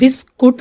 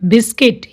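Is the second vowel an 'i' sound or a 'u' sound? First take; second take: u sound; i sound. First: The second syllable has a 'u' vowel. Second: The second syllable has an 'i' vowel. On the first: The speaker calls it wrong. "इसको हम बिस्कुट नहीं बोलेंगे" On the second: The speaker calls it right. "यू इसमें silent है"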